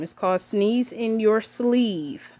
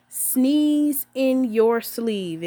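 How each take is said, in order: First: Slow and clear. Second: Chanted, very slow and deliberate, each word spaced. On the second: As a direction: say it slowly like a class chant. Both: Shown as a demonstration. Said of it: "Say it with me".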